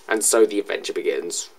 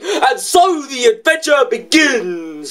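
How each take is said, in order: First: It is said casually, with little energy. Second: It is said dramatically, with much energy. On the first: The speaker calls it wrong. "I just said it casually, putting no effort into it" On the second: The speaker calls it right. "There was so much potential, but instead of saying"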